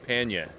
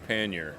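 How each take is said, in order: First: It is said in a New England accent. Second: It is said in a general American accent. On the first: "My favorite alternate pronunciation is panya, which would be New England" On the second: "I say pannier"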